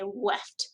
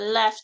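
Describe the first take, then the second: First: The word begins with a W sound. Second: The word begins with a clear L sound. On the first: The speaker calls it wrong. "most students will say a W" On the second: The speaker calls it right. "instead of a left"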